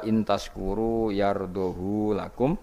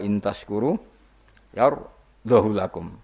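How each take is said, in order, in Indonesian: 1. Vokal pada 'hu' dibaca panjang. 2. Vokal pada 'hu' dibaca pendek. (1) "sertane isba berarti normal" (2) "tampa isba"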